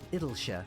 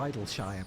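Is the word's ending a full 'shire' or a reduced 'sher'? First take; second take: reduced; full. First: The ending is reduced to a short 'sher'. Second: The ending is a full 'shire' sound. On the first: The name is a pun on English place names. "like Lancashire or Yorkshire" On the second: The name refers to players idling there. "because it's where people would idle"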